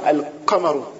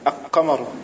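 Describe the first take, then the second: No difference in how they are said.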